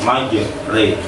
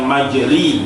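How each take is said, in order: First: The second vowel is an e sound. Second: The second vowel is a full i sound. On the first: The speaker calls it right. "tetapi majre" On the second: The speaker calls it wrong. "bukan majri"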